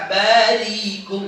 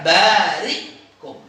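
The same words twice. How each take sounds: First: "barikum" with long gliding "rii", no catch; bacaan ibdal. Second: "barikum" with long "baa", then stopped "ri"; hamzah sukun. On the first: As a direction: stretch "ri" smoothly into "kum" in "barikum". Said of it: "Dia nggak baca". ("barikum" dengan ri panjang tanpa hamzah) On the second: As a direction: cut "ri" short and pause before "kum" in "barikum". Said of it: "Tapi dia baca". ("barikum" dengan hamzah mati setelah ri) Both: Shown as a demonstration.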